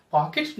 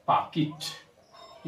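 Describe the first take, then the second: First: "पॉकेट" as "paa-ket"; "पॉकेट" ending in "-ket"; wrong pronunciation. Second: Slow "पॉकेट" as "paa-kit"; correct pronunciation. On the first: Teacher telling pupil what to avoid, "पॉकेट" as "paa-ket". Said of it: "पॉकेट नहीं होता है". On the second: Teacher answering own question, "पॉकेट" as "paa-kit". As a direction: draw out "पॉकेट", short i in "-kit". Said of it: "क्या होता है?". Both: Shown as a demonstration.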